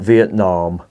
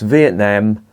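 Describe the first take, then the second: First: The word has an American-style pronunciation. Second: The word has a British-style pronunciation. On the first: The speaker calls it wrong. "not Vietnam. We are not American in this country yet" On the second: The speaker calls it right. "It's pronounced Vietnam"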